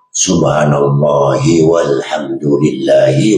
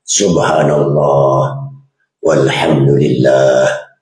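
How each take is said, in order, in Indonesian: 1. Frasa-frasa itu disambung, dengan vokal akhir tetap dibunyikan. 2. Napas memisahkan frasa-frasa itu, vokal akhir tidak dibunyikan. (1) "kalau sambung, huruf yang kita baca kena hidup lah" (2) "Melainkan bernafas. ... Tu, nafas"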